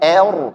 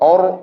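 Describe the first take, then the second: First: The vowel is thinned too far toward e. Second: The vowel is rounded and darkened toward o. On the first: "jangan berlebihan tipiskan, salah" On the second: "jangan or or o, salah"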